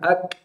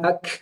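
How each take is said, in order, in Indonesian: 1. Bunyi k di akhir berakhir dengan percikan napas pendek. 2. Bunyi k di akhir berakhir dengan hembusan napas panjang yang mengalir. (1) "tidak dalam bentuk hembusan nafas, tapi percikan nafas" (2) "Bukan ak"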